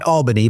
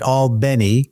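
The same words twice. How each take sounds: First: Albany is said the non-local way. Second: Albany is said the local Georgia way. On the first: This is not how the town's residents say it. The speaker calls it wrong. "Not Albany" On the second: This is how the town's residents say it. The speaker calls it right. "but Albany, which is how they pronounce it"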